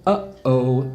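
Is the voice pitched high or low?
low. It is said at a low pitch.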